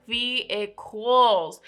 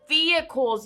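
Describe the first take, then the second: First: "vehicles" very slow, stretched out syllable by syllable; drawn-out emphasis. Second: Said in the usual way. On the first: Real, not acted. Warning you guys about car issues, slow emphatic "vehicles". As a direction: spell out "vehicles" in long, separate syllables.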